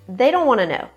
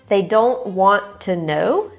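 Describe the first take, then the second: First: 'Want to' is blended into 'wanna'. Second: 'Want to' is said as two full words. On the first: "becomes wanna" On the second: "want to"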